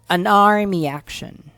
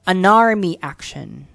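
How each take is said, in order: Both takes have the same delivery.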